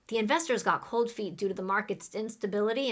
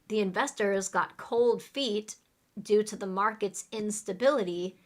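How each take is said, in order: First: The sentence is spoken at a fast pace. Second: The sentence is spoken at a slower pace. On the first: "listen to me say it fast" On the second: "Repeat after me"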